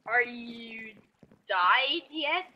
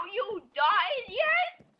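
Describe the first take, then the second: First: Said in the usual way. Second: Slow, high, stretched-out question; silly slow high voice. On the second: Pretend. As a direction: drag it out in a goofy high voice. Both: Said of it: "does that sound like me normally".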